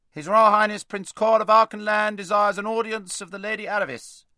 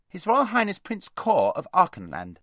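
First: High, loud monotone chant of a herald; herald's proclamation. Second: High, loud announcement; voice from outside. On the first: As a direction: proclaim it formally at full volume. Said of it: "said the herald". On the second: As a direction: call the title through the gate. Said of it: "said a voice from outside". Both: A narrator's reading.

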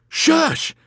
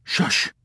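First: Loud, high-pitched roar; roared shush. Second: Whispered shush; hushing. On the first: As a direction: roar for silence in terror. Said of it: "he roared". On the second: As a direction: hush them with a whispered shush. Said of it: "put a finger to his mouth". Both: A narrator's reading.

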